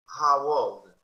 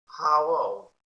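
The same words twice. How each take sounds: First: Put-on How old said loud, How rising; loud drill of How old; loud model. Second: Put-on How old said loud with How stressed; loud model. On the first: Teacher drilling class, loud repeat. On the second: Teacher drilling class, loud How old. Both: Shown as a demonstration. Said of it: "model repeated".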